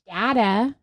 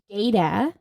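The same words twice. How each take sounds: First: The first vowel is a short A. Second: The first vowel is a long A. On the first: "data with the short A" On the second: "data with the long A"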